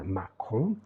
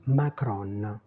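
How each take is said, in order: First: Macron with a French nasal ending, no N; French pronunciation. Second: Macron said slowly with a sounded final N; Macron, stress the end and voice the N; Italian pronunciation. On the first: Teacher quotes the French name for learners: nasal Macron. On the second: Teacher mimics Italian newsreaders for learners: Macron with a clear N. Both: Shown as a demonstration. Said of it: "mais on dit Macron".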